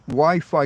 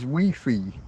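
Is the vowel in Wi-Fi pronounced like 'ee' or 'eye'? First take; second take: eye; ee. First: The vowels are said like 'eye'. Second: The vowels are said like 'ee'.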